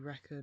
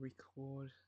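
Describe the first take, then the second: First: The stress is on the first syllable. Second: The stress is on the second syllable. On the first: It is the noun. "Could be the noun" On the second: It is the verb. "or the verb"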